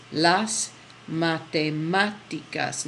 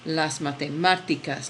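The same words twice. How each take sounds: First: Slow, pushing hard on the "má" of "matemáticas"; slow teacher demo of "matemáticas" with the stressed syllable hit; stress on the accent. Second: "matemáticas" at normal speed, "má" still stressed; quick repeat of "matemáticas" with the accent pushed. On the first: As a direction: draw out Las matemáticas and lean on "má". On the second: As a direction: say Las matemáticas briskly, stress on "má". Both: Shown as a demonstration. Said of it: "Notice where I push is where that accent is".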